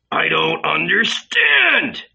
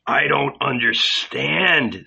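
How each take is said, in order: First: High, slow anguished cry; shouting. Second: Said in the usual way. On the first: Acted. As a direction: wail it out in bewildered distress. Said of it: "Don't shout, Judas".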